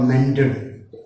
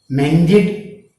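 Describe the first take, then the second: First: The ending sounds like 'ed'. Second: The ending sounds like 'id'. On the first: "Both are correct" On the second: "Id or ed"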